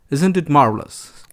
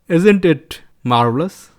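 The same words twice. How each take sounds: First: Said in the usual way. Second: Slow, lilting Indian accent, rising at the end; mock Indian accent. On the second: Shown as a demonstration. Poking fun at accents, slow lilting mock Indian accent. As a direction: stretch "marvelous" upward in a mock Indian accent.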